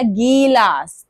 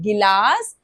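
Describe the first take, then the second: First: The first vowel is drawn out long. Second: The first vowel is short and quick. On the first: The speaker calls it wrong. "टाइम लग रहा है" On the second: The speaker calls it right. "फटाफट से आवाज आ रही है"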